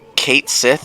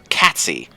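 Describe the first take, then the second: First: The name is said as two words, Kate Sith. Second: The name is said as one word, Catsy.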